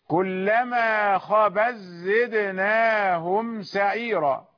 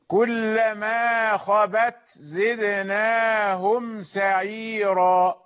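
First: The t merges into a doubled z sound. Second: The t is pronounced clearly before the z. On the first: "نطقنا بزاي مشددة" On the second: "هذا هو الإظهار"

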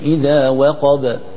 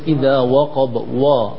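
First: The word ends cleanly on the b sound. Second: An extra wa vowel follows the final b. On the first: The speaker calls it right. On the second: The speaker calls it wrong.

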